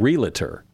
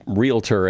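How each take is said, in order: First: Realtor said slowly with an extra middle syllable, ree-luh-tor; three-syllable realtor. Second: Realtor said slowly in two syllables, reel-tor. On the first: Mocking the wrong realtor, slow ree-luh-tor. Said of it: "somebody started saying". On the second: Correct form of realtor, said slowly as reel-tor. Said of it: "like it, it's realtor". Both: Shown as a demonstration.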